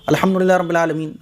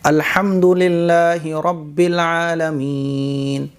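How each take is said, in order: First: It is recited quickly with clipped, swallowed words. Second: It is recited slowly with pauses and clear words. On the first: The speaker calls it wrong. "लफ्ज़ कट भी रहे हैं" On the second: The speaker calls it right. "ये ठहर-ठहर कर है और साफ़ सुथरा है, लफ्ज़ एकदम क्लियर निकल रहे हैं"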